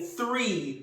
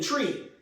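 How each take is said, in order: First: The word begins with a 'th' sound. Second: The word begins with a plain 't' sound. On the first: "instead of saying three" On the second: "a lot of Jamaicans don't pronounce their H's"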